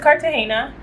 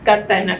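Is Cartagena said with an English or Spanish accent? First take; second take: English; Spanish. First: It is said with an English accent. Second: It is said with a Spanish accent. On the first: "like I could say that, but it just doesn't sound right" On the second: "pronounce things with the accent of how it's said. Like if I say Cartagena"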